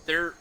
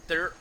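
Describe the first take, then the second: No difference in how they are said.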